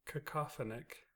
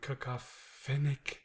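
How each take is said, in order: First: The '-phonic' ending is said lightly. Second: The '-phonic' ending is said heavily. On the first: The speaker calls it right. "You had it" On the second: The speaker calls it wrong. "You just kind of overdid the finic"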